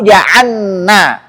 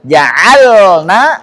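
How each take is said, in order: First: The l merges into a doubled n. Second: The l is held clearly without a vowel. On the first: The speaker calls it wrong. "Jangan sampai" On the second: The speaker calls it right. "memperjelas sukunnya"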